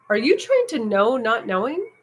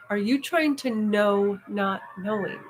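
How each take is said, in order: First: Teacher asking pointedly, rising at the end; teacher's question. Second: Slow, deliberate repeat. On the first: Retold or imitated. Teacher challenging a frustrated student on retreat, pointed rising question. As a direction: quote the teacher's probing question with a lift. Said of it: "my teacher goes". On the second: Shown as a demonstration. Speaker replaying the teacher's question for listeners, slow and deliberate. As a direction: spell the question out slowly so it sinks in. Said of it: "Listen to that".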